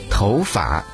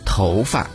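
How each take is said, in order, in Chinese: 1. 第二个字用台湾声调读。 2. 第二个字用大陆声调读。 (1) "在台湾被读作头发" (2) "在我们内地被读作头发"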